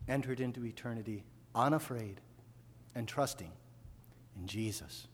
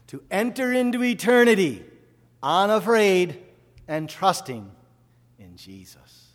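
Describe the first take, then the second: First: Much softer, lower, tender close; quiet reverent reprise; soft reflection. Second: High, loud, slowing proclamation that drops away at the end; loud pulpit proclamation; proclaimed out loud. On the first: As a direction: let it settle quietly. Quiet repeat of earlier line. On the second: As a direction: ring it out, then let it fall. Preacher proclaims mother's death. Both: Acted.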